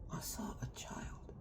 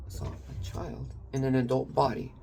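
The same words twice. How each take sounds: First: Breathy hush with no voice; whispered. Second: Said in the usual way. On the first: Real, not acted. Telling a friend about a hurting loved one, in a hushed whisper. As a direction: lean in and breathe it, barely audible. Whispered, then repeated aloud.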